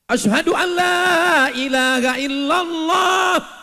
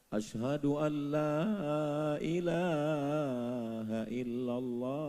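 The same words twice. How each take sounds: First: It is called out loudly, like a prayer call. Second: It is said softly and gently.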